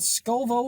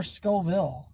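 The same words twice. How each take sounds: First: "Scoville" said as SKOH-voh; alternative pronunciation. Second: "Scoville" said as SKOH-vill; alternative pronunciation. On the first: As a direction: end "Scoville" on an open "voh". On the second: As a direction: end "Scoville" clearly on "vill". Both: Shown as a demonstration. Asks which of two pronunciations.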